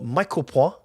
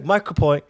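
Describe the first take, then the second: First: The name is pronounced the French way. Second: The name is pronounced the English way.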